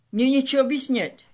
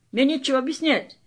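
First: Fast, casual slangy tune on «нечего»; slang intonation. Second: Even faster slangy run with the weight on «мне»; slang intonation, faster. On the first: Actor in a Russian play, rushing a slangy, careless line. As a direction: toss off «Мне нечего объяснять» quickly, street style. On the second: Actor repeating the line, punching «мне» slangily. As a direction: rattle off «Мне нечего объяснять», stressing «мне». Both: Shown as a demonstration. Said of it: "I'm doing a very slang intonation right now".

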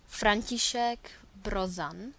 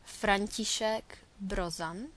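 Both takes have the same delivery.

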